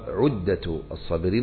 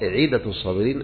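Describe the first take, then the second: First: The first word begins with an 'u' vowel. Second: The first word begins with an 'i' vowel. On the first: The title means provision or equipment for the patient. The speaker calls it wrong. "وقد ينطق البعض عدة الصابرين إذا كان في الكتاب ما يكون عدة له" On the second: The title means what is promised to the patient. The speaker calls it right. "لكن الظاهر عدة الصابرين أي ما وعد الله سبحانه وتعالى به الصابرين"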